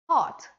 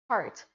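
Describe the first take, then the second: First: The R after the vowel is silent. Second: The R after the vowel is pronounced. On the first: "In British accent, it's hot" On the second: "So in American accent, it's heart"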